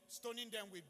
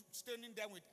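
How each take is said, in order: Both takes have the same delivery.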